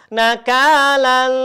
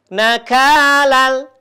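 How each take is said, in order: First: The sound is held with a nasal hum. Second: The sound flows on smoothly without a nasal hold. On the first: The speaker calls it wrong. "Jadi tidak dibacakan nakalal. Nah, tidak boleh seperti itu" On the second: The speaker calls it right. "Jadi suaranya langsung mengalir lembut. Contohnya seperti ini"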